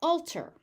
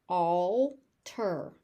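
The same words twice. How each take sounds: First: Said in the usual way. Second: "Alter" stretched into two separate syllables; overpronounced. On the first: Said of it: "I will say the word normally". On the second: Shown as a demonstration. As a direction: say "Alter" slowly, pausing before the "ter". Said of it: "I will overpronounce it".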